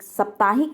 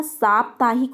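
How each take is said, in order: First: साप्ताहिक with short opening "sap"; साप्ताहिक said as "sap-taa-hik"; mispronunciation demo. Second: साप्ताहिक with long opening "saa"; साप्ताहिक said as "saap-taa-hik"; correct pronunciation. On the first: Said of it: "नहीं होता". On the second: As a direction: stretch the first vowel of साप्ताहिक to "saap". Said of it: "होता है". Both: Shown as a demonstration.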